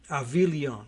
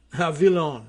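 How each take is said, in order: First: "Avilion" as ah-vee-lee-OHN, Frenchified; tentative French-ish "Avilion", g left silent; French-ish pronunciation. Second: "Avilion" as ah-vee-LON, three syllables; second guess at "Avilion", dropping the ee before the ending; alternative French-ish pronunciation. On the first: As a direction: try "Avilion" French-style, with an ee-ohn ending. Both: Shown as a demonstration. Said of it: "does it have a French-ish pronunciation".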